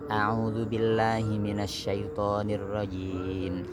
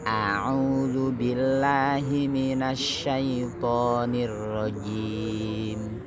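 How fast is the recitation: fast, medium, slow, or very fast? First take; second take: very fast; medium. First: It is recited at a very fast pace. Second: It is recited at a moderate pace. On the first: "Lebih cepat lagi, namanya hadr" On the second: "kalau tartil lebih cepat"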